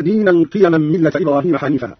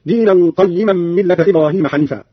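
First: Said in the usual way. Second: قيما said qayyiman, with doubled ي. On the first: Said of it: "قرأ قالون بفتح القاف". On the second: Shown as a demonstration. Teacher showing Qalun's reading, قيما as qayyiman. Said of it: "بفتح القاف وكسر الياء مشددة هكذا".

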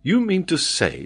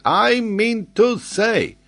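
First: Higher-pitched doubtful query; incredulous. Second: Put-on high, loud, slow French-accented retort; emphatic French geographer. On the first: Acted. Glenarvan doubts the geographer's claim, incredulous. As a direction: question it in disbelief, without raising volume. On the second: Geographer answers doubting Glenarvan, emphatic. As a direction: throw the words back, each drawn out.

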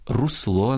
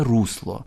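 First: Русло stressed on the final -ЛО; correct stress. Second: Русло stressed on the first syllable, РУС-; wrong stress. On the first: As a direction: hit the last syllable of русло. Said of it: "а правильно русло наголошувати". (наголос на останньому складі: русло) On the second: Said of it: "ніяке не русло". (наголос на першому складі: русло) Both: Shown as a demonstration.

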